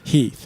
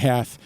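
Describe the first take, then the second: First: The name has a long 'ee' vowel. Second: The name has a short 'e' vowel. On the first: It is how the name was probably said at the time. "it was probably pronounced Heath" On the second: It follows how the name is spelled. "a lot of people say Heth"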